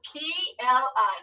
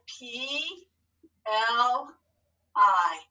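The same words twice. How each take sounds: First: Said in the usual way. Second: P... L... I, each letter drawn out alone; spelling for writing. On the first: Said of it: "how are we gonna spell pl". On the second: Shown as a demonstration. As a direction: dictate P, L, I with long pauses. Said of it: "Tell your hand what to write".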